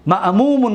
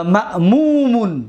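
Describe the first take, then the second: First: Said in the usual way. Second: Slow emphatic form. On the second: Shown as a demonstration. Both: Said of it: "اسم مفعولش".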